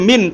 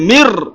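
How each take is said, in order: First: The word ends with an n sound. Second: The word ends with an r sound. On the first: The speaker calls it wrong. "তাহলে আপনার পড়াটা হবে না" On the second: The speaker calls it right. "মিম রয়ের সাথে গিয়ে মিলবে"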